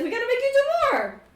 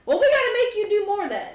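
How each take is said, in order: First: Very high, rapid, loud exclamation; emphatic repeat. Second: High, quick, loud push; acted insistence. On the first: Acted. Character repeats himself after a baffled "What?", exclaiming. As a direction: blurt it out louder and much faster. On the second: Character pushes the one who hasn't done much, insistently. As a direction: insist in a raised, hurried voice.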